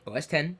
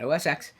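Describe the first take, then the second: First: The final part is said as 'ten'. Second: The final part is said as 'ex'. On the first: The speaker calls it right. "that's how you say it" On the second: The speaker calls it wrong. "not O S X"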